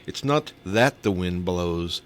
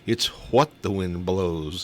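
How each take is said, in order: First: "that" held and leaned on, slow measured punchline; stress on "that". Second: "what" hit hard, slow deliberate punchline; stress on "what". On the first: Retelling a comedian's hurricane joke, stress on "that". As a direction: stretch it out slowly, weight on "that". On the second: Retelling a comedian's hurricane punchline, stress on "what". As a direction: punch "what" against the setup, drawn out. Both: Retold or imitated. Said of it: "He goes".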